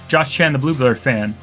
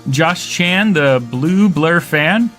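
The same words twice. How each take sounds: First: The phrase is said quickly. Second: The phrase is said at a normal pace.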